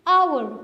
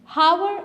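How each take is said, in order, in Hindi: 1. शब्द की शुरुआत स्वर ध्वनि से होती है। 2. शब्द की शुरुआत h ध्वनि से होती है। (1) "आप कहते हैं आवर" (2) "हावर आप नहीं कहते"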